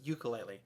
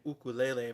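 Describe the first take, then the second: First: It uses the common American pronunciation. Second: It uses the original Hawaiian pronunciation. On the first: This is the usual local name. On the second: This is the instrument's original name. "called by its actual name"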